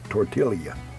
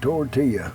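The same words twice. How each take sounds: First: The L sound is clearly pronounced. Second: The L sound is silent, like a Y. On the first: "With the L" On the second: "without the L's"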